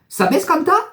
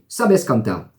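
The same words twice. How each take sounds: First: The voice rises at the end. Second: The voice falls at the end.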